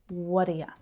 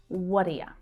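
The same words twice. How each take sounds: First: The vowels reduce and the words link together. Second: The vowels reduce and the words link together.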